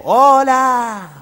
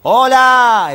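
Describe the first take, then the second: First: High distant echo voice; cave echo. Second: Calling out loud into a cave; shouting. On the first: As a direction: sound like the echo answering back. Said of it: "Y decía el eco". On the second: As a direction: yell it high into the cavern. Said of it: "así gritaba el médico". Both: Acted.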